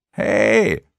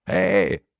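First: Hey called again, louder and pushier; second, louder call. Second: A light first call of hey. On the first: Vanessa calls Lukas again, louder insistent call. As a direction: call hey a second time with more force. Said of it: "rief sie ein zweites Mal". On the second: Vanessa calls to Lukas the first time, light call. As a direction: call out hey once, still restrained. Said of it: "rief Vanessa". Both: A narrator's reading.

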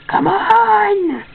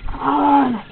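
First: Much higher, stretched come on; frustrated high-pitched plea; exasperated high plea. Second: Said in the usual way. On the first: Real, not acted. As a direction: beg the computer, pitch up high. Computer lagging, pleading louder.

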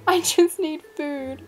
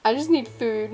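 First: Slow, higher, laughing whine; laughing plea. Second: Said in the usual way. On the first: Real, not acted. Starving gamer pleading with the waiter, laughing whine. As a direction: drag it out through a laugh.

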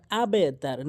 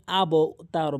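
First: আবে তার with the b bounced down into a short e; downward qalqalah. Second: আব তার with the b bounced up towards an o; upward qalqalah. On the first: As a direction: correct আবে তার, unrounded bounce after b. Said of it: "নিচের দিকে sound হবে". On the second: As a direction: release the b of আব upwards, like abo. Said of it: "আব উপরের দিকে sound হবে না". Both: Shown as a demonstration.

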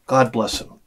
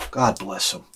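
First: Said in the usual way. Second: Breathy whisper after a sigh, much softer; whispered blessing. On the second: Real, not acted. Sigh, then a hushed blessing.

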